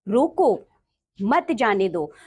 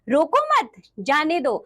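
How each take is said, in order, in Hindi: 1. विराम पहले शब्द के ठीक बाद आता है। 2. विराम दूसरे शब्द के ठीक बाद आता है। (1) "हमें रोकना है, जाने नहीं देना है।" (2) "अब हमें रोकना नहीं है, जाने देना है।"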